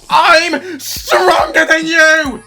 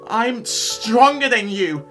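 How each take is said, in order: First: It is said loudly, almost shouted. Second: It is said quietly.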